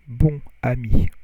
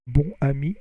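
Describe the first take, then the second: First: The vowel is nasal, with no linking N. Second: The vowel is oral, linked with an N. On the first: "if you don't make the liaison, it would be like bon" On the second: "But if you do the liaison, bonne"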